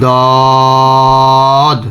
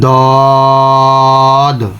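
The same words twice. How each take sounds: No difference in how they are said.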